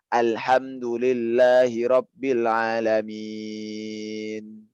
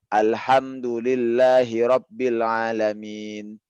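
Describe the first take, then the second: First: The final long vowel is held for six counts. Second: The final long vowel is held for two counts. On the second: "itu dua"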